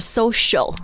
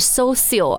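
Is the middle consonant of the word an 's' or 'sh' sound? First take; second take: sh; s. First: The middle consonant is a sh sound. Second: The middle consonant is a plain s sound. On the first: The speaker calls it right. "是 sh 的音" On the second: The speaker calls it wrong. "这个不是 social"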